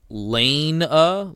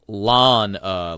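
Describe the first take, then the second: First: The first vowel sounds like the vowel in 'lane'. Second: The first vowel sounds like the vowel in 'lawn'. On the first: "like a street lane" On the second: "like I'm going to mow my lawn"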